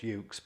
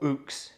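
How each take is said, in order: First: The word begins with a 'yoo' sound. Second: The word begins with an 'oo' sound. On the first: "I know I was pronouncing it wrong there" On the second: "I apologise for ook ukulele um, people"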